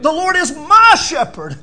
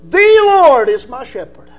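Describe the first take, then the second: First: The stress falls on the word "my". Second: The stress falls on the word "The".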